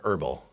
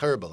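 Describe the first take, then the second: First: The word begins with a vowel and no H sound. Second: The word begins with an audible H sound. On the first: This is the American way to say it. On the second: This is the British way to say it.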